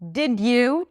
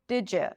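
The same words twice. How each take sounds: First: The d and y stay separate sounds. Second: The d and y merge into a j sound. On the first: "Did you turns into" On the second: "turns into did you"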